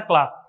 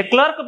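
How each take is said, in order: First: क्लार्क with a long aa, klaark; correct pronunciation. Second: क्लर्क with a short a, klurk; the usual mispronunciation क्लर्क, short vowel; common wrong pronunciation. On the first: Teacher giving students the correct clerk, long aa. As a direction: model the right क्लार्क, long open vowel. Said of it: "इसका right pronunciation होता है क्लार्क". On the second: Teacher showing how students usually misread clerk, short vowel. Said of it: "या क्लर्क पढ़ते हैं हम आमतौर पर". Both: Shown as a demonstration.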